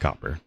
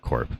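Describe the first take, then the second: First: The word is said as two syllables. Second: The word is said as one syllable. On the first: The speaker calls it right. "It's copper" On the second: The speaker calls it wrong. "I always call it corp. It's not corp"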